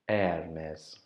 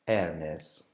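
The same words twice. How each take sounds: The two takes are said the same way.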